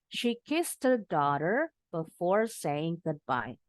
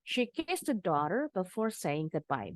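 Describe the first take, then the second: First: The sentence is read slowly and carefully. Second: The sentence is read at a faster pace. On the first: "bacanya pelan-pelan, yang penting disambung" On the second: "you may speed up a little bit"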